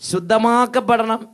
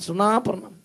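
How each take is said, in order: First: Every syllable is said fully and clearly. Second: It is rushed, with syllables merged and dropped.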